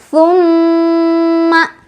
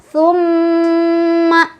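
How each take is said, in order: Both takes have the same delivery.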